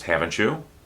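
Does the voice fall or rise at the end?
rise. The voice rises at the end of the tag. The asker may not know the answer. "There's the possibility I don't know the answer"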